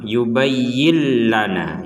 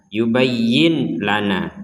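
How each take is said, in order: First: The n merges completely into the following l. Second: The n is pronounced clearly before the l. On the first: The speaker calls it right. "sekarang dari yang jelas itu kita masukkan ke lam" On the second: The speaker calls it wrong. "Jelas itu yubayyin lana"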